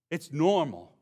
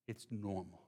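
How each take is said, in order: First: "It's normal" pressed a bit louder; "It's normal" stated firmly; emphatic. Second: "It's normal" dropped much softer; quiet, settled "It's normal"; soft restatement. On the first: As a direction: land "normal" with a firm fall. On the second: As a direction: let "It's normal" fall away gently. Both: Shown as a demonstration. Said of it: "repeated for emphasis".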